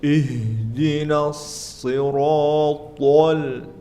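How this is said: It is said with heavy, strained articulation. The speaker calls it wrong. "terlalu berat"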